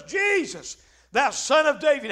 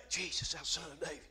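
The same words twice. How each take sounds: First: Imitated beggar's cry, pitched up at the start. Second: Very low, hushed mumble; mock timid call. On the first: Preacher as blind Bartimaeus calling Jesus past the crowd, crying out. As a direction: call out to be heard over a crowd. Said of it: "he cries out and says". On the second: Preacher showing how the blind man didn't cry out, hushed and low. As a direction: call out far too quietly, under the voice. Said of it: "But he didn't say".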